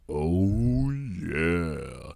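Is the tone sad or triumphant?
sad. It is said in a sad, deflated way.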